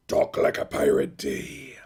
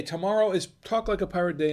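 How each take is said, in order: First: Slow, growling pirate announcement; hammed-up pirate drawl. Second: Said in the usual way. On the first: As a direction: announce it like an old movie pirate. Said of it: "that was his voice that everybody's tried to emulate". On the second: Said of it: "Yes, it is Talk Like a Pirate Day".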